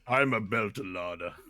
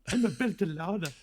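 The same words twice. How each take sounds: First: The voice is deep, almost a growl. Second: The voice is plain, without a growl. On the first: The speaker calls it right. "She got a kind of a deep voice, like a growl almost" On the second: The speaker calls it wrong. "she doesn't talk like this"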